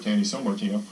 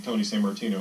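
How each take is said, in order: First: The name is said with a French-style pronunciation. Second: The name is said with an ordinary English pronunciation.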